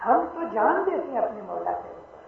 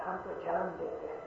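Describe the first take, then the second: First: Full-voiced declaration. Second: ہم تو جان دیتے ہیں said softly, almost to himself; soft first take. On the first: Preacher declaring devotion to his Lord, full-voiced. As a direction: proclaim it to the whole hall. Repeated phrase, second take full. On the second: Preacher musing quietly to the congregation, softly. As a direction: drop the voice on جان. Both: Real, not acted.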